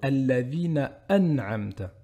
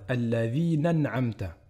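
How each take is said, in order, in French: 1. Une coupure glottale coupe le son avant an'amta. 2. Les mots s'enchaînent sans coupure glottale. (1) "mais plutôt" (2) "Il ne faut pas faire"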